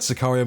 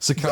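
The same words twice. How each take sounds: First: It is said in the speaker's ordinary accent. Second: It is said in a put-on Mexican accent.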